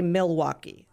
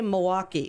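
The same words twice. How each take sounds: First: It is said with a non-local pronunciation. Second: It is said with a local Wisconsin pronunciation. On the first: This is how outsiders say it. The speaker calls it wrong. "We don't say Milwaukee" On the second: This is how locals say it. The speaker calls it right. "We say Milwaukee"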